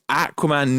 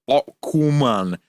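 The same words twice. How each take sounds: First: It is pronounced the English way. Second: It is pronounced a non-English way. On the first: The speaker calls it right. "that is how you say it in England. So it's Aquaman" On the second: The speaker calls it wrong. "not Aquaman"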